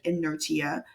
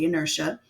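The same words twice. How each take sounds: First: It is sounded out the way it is spelled. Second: It is said with its usual spoken pronunciation. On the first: The speaker calls it wrong. "it looks like inertia. That's not how you say it" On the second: The speaker calls it right. "You say inertia"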